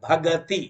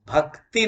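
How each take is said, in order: First: The cluster is split by a vowel: 'bha-ga-ti'. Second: The word has a tight 'kt' consonant cluster. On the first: "भक्ति नहीं बोला, भगति" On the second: "स्पष्ट उच्चारण"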